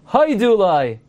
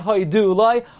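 First: The stress is on the first syllable of hodu. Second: The stress is on the last syllable of hodu. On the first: The speaker calls it right. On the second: The speaker calls it wrong.

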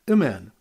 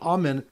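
First: The first vowel is a short reduced sound. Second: The first vowel is a full open 'ah'. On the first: The speaker calls it wrong. "The Alf is pronounced with the Shiva" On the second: The speaker calls it right. "instead of a Kamatz Gadol"

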